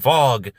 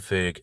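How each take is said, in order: First: The name has a long 'o' vowel. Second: The name has a short 'i' vowel. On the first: The speaker calls it right. "I want to say Vogue Agency" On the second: The speaker calls it wrong. "I think it's a better pronunciation than Vig"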